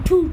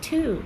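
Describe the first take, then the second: First: It is said short, in a British accent. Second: It is said drawn out, in an American accent. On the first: "এটা British ইংরেজি যে টু" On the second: "American English টু ... টেনে"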